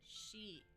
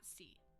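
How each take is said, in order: First: It begins with a sh sound. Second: It begins with a plain s sound. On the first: The speaker calls it right. "it is pronounced she" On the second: The speaker calls it wrong. "not si"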